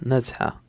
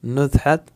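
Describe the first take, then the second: First: नज़हा ending open on a long 'aa'; final t dropped. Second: नज़हत closed with an audible 't'; final t sounded. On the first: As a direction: drop the 't', finish नज़हा on the vowel. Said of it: "कुछ लोग इसको नज़हा ही पढ़ेंगे". (नज़हा, आख़िर में 'त' के बिना) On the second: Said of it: "नज़हत भी पढ़ेंगे". (नज़हत का आख़िरी 'त' बोलकर) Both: Shown as a demonstration.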